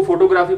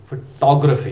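First: फोटोग्राफी as FO-to-GRAA-fee; full "o" vowels and long "graa" in फोटोग्राफी; common mispronunciation. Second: फोटोग्राफी as fuh-TOG-ruh-fee; British pronunciation. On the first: Teacher quoting the usual reading, FO-to-GRAA-fee for फोटोग्राफी. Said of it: "पढ़ा जाता है आमतौर पे". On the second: Teacher correcting learners, British fuh-TOG-ruh-fee for फोटोग्राफी. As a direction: punch the rounded "tog" in फोटोग्राफी, louder. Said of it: "इस लफ्ज़ को आपने पढ़ना है". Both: Shown as a demonstration.

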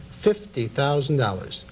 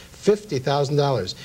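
Both takes have the same delivery.

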